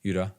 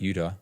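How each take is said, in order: Both takes have the same delivery.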